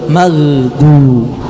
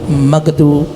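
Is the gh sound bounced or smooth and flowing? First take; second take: smooth; bounced. First: The gh sound flows smoothly without a bounce. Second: The gh sound is released with a bouncing echo. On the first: The speaker calls it right. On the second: The speaker calls it wrong. "Jangan magdu, magdu, mag, mag, ini mantul"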